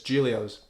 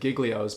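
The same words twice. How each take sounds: First: The g sounds in the middle are silent. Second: The g sounds in the middle are pronounced. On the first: The speaker calls it right. "but it's Giglio's. There's two G's that are silent" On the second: The speaker calls it wrong. "A lot of people will say Giglio's"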